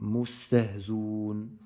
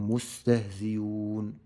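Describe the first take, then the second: First: The hamza is dropped completely. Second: The hamza is replaced by a y sound. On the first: "نقرأ بالحذف" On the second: "بالياء"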